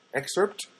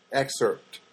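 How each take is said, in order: First: "Excerpt" said with a rising questioning tune; "Excerpt" asked with an upward lift at the end. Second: "Excerpt" said with a firm falling tune; "Excerpt" stated flatly with a falling end; falling statement. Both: Shown as a demonstration.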